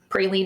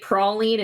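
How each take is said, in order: First: It is said the non-Southern way. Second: It is said the Southern US way. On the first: "rather than" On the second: "we also say because uh, because we're southern"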